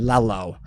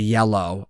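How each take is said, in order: First: The word begins with an L sound. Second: The word begins with a Y sound. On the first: "L's are common" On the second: "instead of yellow"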